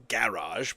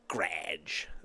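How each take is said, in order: First: The word is said with two syllables. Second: The word is squeezed into one syllable. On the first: This is the British way of saying it. "if you're British, it's a garage" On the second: This is the rural way of saying it. "referred to as a grage. G R A D G E"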